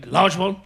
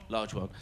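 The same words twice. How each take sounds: First: Higher, louder LARGE ONE as an offer; questioning offer. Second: Lower, softer LARGE ONE settling it; answering agreement. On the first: Drinker offering his mate a scotch, questioning LARGE ONE. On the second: Drinker answering his mate's offer, low agreeing LARGE ONE. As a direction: drop LARGE ONE down as a quiet reply. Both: Retold or imitated.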